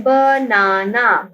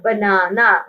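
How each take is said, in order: First: banana drawn out in three slow syllables. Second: Said in the usual way. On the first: Shown as a demonstration. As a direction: break banana into ba, naa, naa. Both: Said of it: "हमारे पास three syllables हैं".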